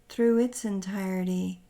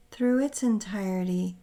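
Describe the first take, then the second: No difference in how they are said.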